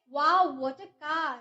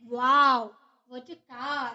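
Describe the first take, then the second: First: Drawn-out, wonder-struck exclaim; amazed wow. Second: Quick loud wow, then trailing off. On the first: Teacher showing an interjection, amazed. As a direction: let the wow spill out in awe. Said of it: "आपके मुंह से suddenly ये feelings आए". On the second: Teacher repeating the example, loud wow fading. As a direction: burst out, then drop away. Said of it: "interjection है". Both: Shown as a demonstration.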